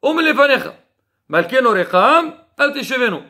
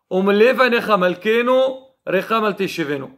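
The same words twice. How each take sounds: First: The pauses come after anecha and recham. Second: The pause comes after malkenu.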